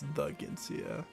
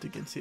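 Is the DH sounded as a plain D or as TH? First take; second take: TH; plain D. First: The DH is sounded like a TH. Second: The DH is sounded as a plain D. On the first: The speaker calls it right. "it's the Ginsia" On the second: The speaker calls it wrong. "It's not the Ginsia"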